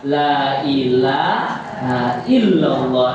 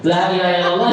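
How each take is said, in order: First: Very slow, drawn out recitation; slowly. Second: Put-on quick, laughing Javanese-accented illallah; Javanese tongue. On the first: Shown as a demonstration. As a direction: stretch every syllable gently. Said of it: "Pelan-pelan sambil mengucapkan". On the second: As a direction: say it the easy village way, with a laugh. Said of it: "Nek wong Jawa ilate".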